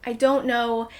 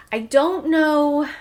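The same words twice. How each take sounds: First: Said in the usual way. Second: Slow, stretched-out "I don't know"; drawn-out hesitation. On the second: Real, not acted. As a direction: drag out "know" unsure.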